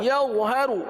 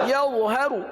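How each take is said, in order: The two takes are said the same way.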